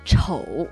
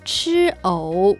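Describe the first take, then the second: First: The syllables run together quickly into one. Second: Two syllables are said slowly and clearly apart. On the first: It sounds like the word for ugly. "早く言うと" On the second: It means eating lotus root. "はっきり言うと吃藕ですけど"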